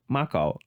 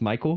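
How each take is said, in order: First: The name is said with a heavy foreign accent. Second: The name is said with plain English vowels. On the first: "but she says Mako" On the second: "her brother's name is Michael"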